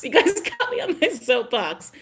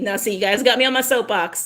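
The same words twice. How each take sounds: First: Higher, giggling through soapbox; laughing. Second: Said in the usual way. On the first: Real, not acted. Vlogger laughing at herself to viewers. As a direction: laugh while admitting the rant.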